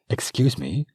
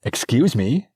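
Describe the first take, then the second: First: Polite interruption. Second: Louder, pointed, offended; sharper repeated interruption. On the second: Princess ignored by the servant, repeating herself indignantly. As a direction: repeat it, insisting on attention now. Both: Acted. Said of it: "she said again".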